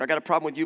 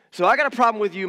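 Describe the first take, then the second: First: Said in the usual way. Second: "got" stressed, higher and louder; emphatic "got". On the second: Shown as a demonstration. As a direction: lean hard on "got" in "I got a problem". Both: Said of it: "repeated rhetorical build".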